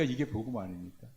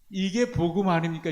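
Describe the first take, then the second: First: "이게 복음 아닙니까" repeated much softer and lower; quiet echo. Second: "이게" stressed, a touch louder and higher; emphatic question. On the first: Preacher repeating his question inwardly, softly. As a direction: echo it to yourself, hushed. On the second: Preacher challenging the congregation, emphatic. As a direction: put it to the congregation firmly. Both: Shown as a demonstration.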